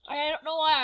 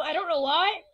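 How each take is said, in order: First: Slight accidental British accent. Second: Said in the usual way. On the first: Real, not acted. Vlogger accidentally slipping while explaining the new look, British accent. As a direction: slip briefly into a British accent. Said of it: "I just had a British accent then".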